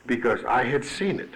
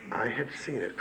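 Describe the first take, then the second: First: Said in the usual way. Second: Much softer, almost to himself; hushed echo of the line before; quiet repeat. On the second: Real, not acted. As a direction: drop the voice right down on the repeat.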